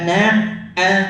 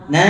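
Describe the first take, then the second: First: A glottal catch breaks the vowel into two. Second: The sound flows smoothly without a glottal catch. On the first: The speaker calls it wrong. "bukan na a" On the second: The speaker calls it right. "Na begitu harusnya"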